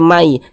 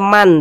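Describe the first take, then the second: First: The n sound is merged into the following y. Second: The final n sound is pronounced clearly. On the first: The speaker calls it right. "tapi dibaca mai" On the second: The speaker calls it wrong. "Jangan dibaca man"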